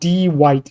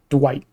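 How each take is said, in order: First: It is said as two syllables, stressing D. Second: It is said as a single syllable. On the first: "I emphasize the D. I put like two syllable" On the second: "not Dwight"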